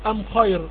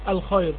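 First: The article is said with an m sound. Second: The article is said with an l sound. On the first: This is the form some Arabs use instead of the l. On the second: This is the usual form of the article.

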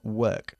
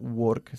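First: The vowel is said with spread, smiling lips. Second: The vowel is said without spread, smiling lips. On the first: The speaker calls it right. "sino work" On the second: The speaker calls it wrong. "No work"

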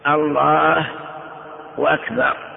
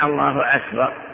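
First: A w sound comes before 'akbar'. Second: A glottal stop begins 'akbar', with no w sound. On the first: The speaker calls it wrong. "يقلبون الضمة واوا ... وهذا خطأ" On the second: The speaker calls it right. "لا بد من الله أكبر"

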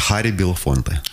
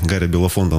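First: The name begins with a breathy H sound. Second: The name begins with a voiced G sound. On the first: This is the name as it is properly pronounced. "если правильно произносить его имя" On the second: This is the familiar local form of the name. "привыкли Ха на Г заменять"

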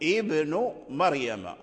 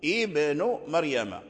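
First: The first word begins with a glottal stop. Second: The first word begins with a glottal stop.

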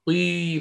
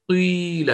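First: A brief u sound glides straight into the i. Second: The same.

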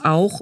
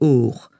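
First: The vowel is a gliding 'ow' sound. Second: The vowel is a plain long 'oh' sound. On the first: "Aus Auch wurde Och" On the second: "wobei das O auch im Leipziger Dialekt eine entscheidende Rolle spielte"

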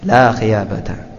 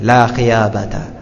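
Both takes have the same delivery.

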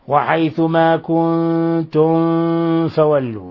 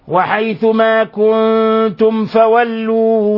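First: The m before f is hidden, barely heard. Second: The m before f is pronounced fully and clearly. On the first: The speaker calls it wrong. "فمن الخطأ أن تقرأها هكذا" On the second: The speaker calls it right. "وإنما"

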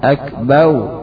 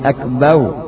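First: The word ends with a w-like sound. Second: The word ends with a w-like sound.

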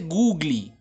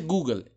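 First: The word ends with an added 'ee' sound. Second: The word ends with a plain 'l' sound. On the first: The speaker calls it wrong. "No se dice Googly" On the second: The speaker calls it right. "se dice Google"

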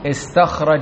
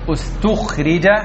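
First: The verb begins with an i vowel. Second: The verb begins with a u vowel. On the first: The doer of the action is named. "ماض مبني" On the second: The doer of the action is not named. "واجعل الفعل مغير الصيغة"

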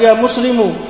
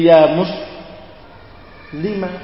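First: The final consonant takes a 'u' vowel. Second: The final consonant takes an 'a' vowel. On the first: It sounds like a man is being called. The speaker calls it wrong. "itu langsung didomang. Tidak boleh" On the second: A woman is being called. The speaker calls it right. "Mimnya di fathah"

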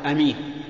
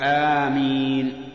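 First: The first vowel is short, with a single m. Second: The first vowel is long, with a single m. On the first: It means trustworthy, from the root for safety. The speaker calls it wrong. "لا يصح أن تقول أمين، لأن أمين صفة مشبهة من الأمن" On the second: It is a prayer meaning answer us, O God. The speaker calls it right. "بل يقول آمين"

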